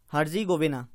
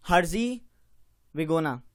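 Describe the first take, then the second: First: Said in the usual way. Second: हर्जेगोविना drawn out syllable by syllable, very slow; slow careful pronunciation. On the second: Shown as a demonstration. Teacher to students, slowly sounding out हर्जेगोविना. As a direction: spell out हर्जेगोविना slowly, each syllable clear. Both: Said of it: "मैं भी try करता हूँ".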